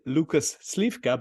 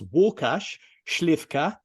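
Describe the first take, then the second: First: The name is pronounced with English sounds. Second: The name is pronounced with Polish sounds. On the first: This is how English speakers would say it. "his name to you would be" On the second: This is how a Polish speaker says it. "but to me it's"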